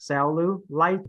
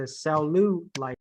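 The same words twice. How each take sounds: First: "cellulite" slowly, with the weight on LITE; third-syllable stress. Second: "cellulite" with the weight on LU; wrong second-syllable stress. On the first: Teacher moving emphasis to the third one, stress on LITE in "cellulite". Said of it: "put this on the third one". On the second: Teacher showing student the misplaced emphasis, stress on LU in "cellulite". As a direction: slowly lean on LU in "cellulite". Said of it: "emphasis on the second". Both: Shown as a demonstration.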